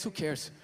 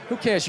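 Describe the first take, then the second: First: Dismissive mutter. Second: Said in the usual way. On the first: Acted.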